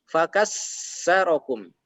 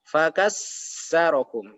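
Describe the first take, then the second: Both takes have the same delivery.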